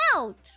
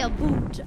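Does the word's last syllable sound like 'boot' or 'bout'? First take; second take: bout; boot. First: The second syllable rhymes with 'shout'. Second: The second syllable rhymes with 'boot'. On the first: This is how the speaker says it. "I say about" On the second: This is how others claim the speaker says it. "I do not say a boot"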